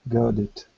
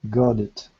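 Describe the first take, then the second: Both takes have the same delivery.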